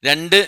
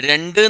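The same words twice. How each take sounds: No difference in how they are said.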